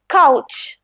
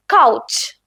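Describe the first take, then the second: First: കൗച്ച് again with the k sound; German pronunciation. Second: കൗച്ച് with a hard k, "kautsch"; German pronunciation. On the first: Teacher repeats കൗച്ച് for learners. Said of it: "ഇവിടെ ക sound ആണ് use ചെയ്യുന്നത്". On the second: Teacher shows learners the German കൗച്ച്. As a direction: model കൗച്ച് in German, k sound. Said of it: "സേയുടെ ഉച്ചാരണമല്ലല്ലോ". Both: Shown as a demonstration.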